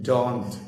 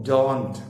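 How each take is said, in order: The two takes are said the same way.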